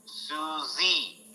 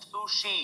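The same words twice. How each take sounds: First: "Susie" with a buzzing z; soft drawn-out "Susie" with a z; American Susie sound; American reading. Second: "sushi" with a soft sh; Japanese reading. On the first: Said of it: "American pronunciation of this". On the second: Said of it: "they pronounce it as". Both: Shown as a demonstration.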